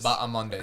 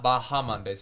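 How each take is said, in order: First: The H in the name is silent. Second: The H in the name is pronounced. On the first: The speaker calls it right. "The H is silent" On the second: The speaker calls it wrong.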